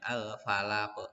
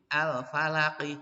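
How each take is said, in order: First: The word ends on a bouncing q sound. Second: The word ends on a full final vowel.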